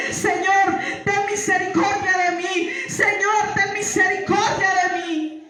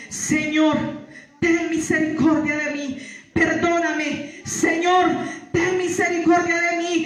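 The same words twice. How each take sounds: First: Desperate plea, pitched higher; pleading for mercy while falling into darkness; crying out to God. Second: Said in the usual way. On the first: Retold or imitated. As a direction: cry out to the Lord, begging. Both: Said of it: "no paraba de clamarle".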